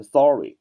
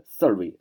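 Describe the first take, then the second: First: "sorry" with a full open first vowel. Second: "survey" said as suh-ree; reduced vowel. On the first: Teacher linking the ending to a familiar word, full-vowelled "sorry". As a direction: say "sorry" clearly as SAW-ree. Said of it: "看成sorry啊". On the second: Teacher showing students the word ending, weak "survey" as suh-ree. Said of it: "那你可以把这个survey啊看成sorry啊". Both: Shown as a demonstration.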